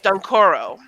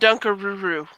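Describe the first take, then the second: First: The name is said with three syllables. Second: The name is said with four syllables. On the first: "So that's his name. It's Dunkoro" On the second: "The first time I tried to say it, I called him Dunkaruru"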